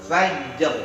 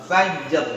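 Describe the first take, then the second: No difference in how they are said.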